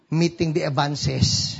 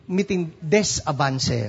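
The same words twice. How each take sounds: First: Avances with the s at the end; plural on last word. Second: Des with an s, avance without; plural on middle word. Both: Shown as a demonstration. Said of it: "How do you make it plural".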